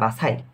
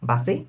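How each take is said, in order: First: The final syllable is said like 'sigh'. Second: The final syllable is said like 'see'. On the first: "এটা অ্যানা বাসাইও পড়া যায়" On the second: "বাসিও পড়া যায়"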